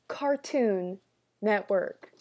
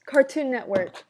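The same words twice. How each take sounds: First: CARTOON, pause, NETWORK; Cartoon... Network, word by word; emphatic repeat. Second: Loud, raised CARTOON NETWORK in one run; loud, higher-pitched channel plug; emphatic. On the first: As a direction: set "Cartoon" and "Network" apart, each stressed. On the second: Names the channel, then repeats it. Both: Real, not acted.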